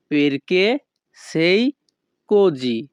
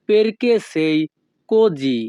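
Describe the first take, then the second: First: "Perché", "sei", "così" said apart with pauses; word by word. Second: Said in the usual way. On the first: Shown as a demonstration. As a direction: separate each word clearly.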